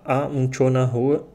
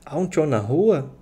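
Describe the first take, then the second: First: The voice falls at the end like a statement. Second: The voice rises at the end like a question. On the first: It states that someone is in the street. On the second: It asks whether someone is in the street.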